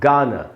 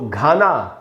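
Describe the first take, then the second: First: It begins with a plain, unaspirated g sound. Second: It begins with a breathy, aspirated g sound. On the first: The speaker calls it right. "हमको पढ़ना है गाना" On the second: The speaker calls it wrong. "इसको घाना नहीं पढ़ के"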